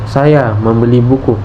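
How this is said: The word saya is stressed. The buyer is me, not someone else. "Tekanan pada "saya""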